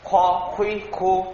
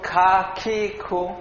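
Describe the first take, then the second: First: The syllables sound heavy, with a full mouth. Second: The syllables sound light and thin. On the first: The speaker calls it right. "মোটা হবে, মুখটা ভর্তি মনে হবে" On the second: The speaker calls it wrong. "পাতলা হয়ে গেল না"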